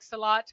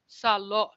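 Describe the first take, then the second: First: The second vowel sounds like 'ah'. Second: The second vowel sounds like 'oh'. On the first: This is how the word is pronounced today. "pronounce it like salat" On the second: This is how the word was pronounced long ago. "you used to pronounce it like salot"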